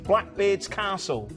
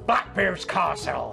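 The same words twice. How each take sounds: First: It is said in an ordinary speaking accent. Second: It is said in an exaggerated pirate accent.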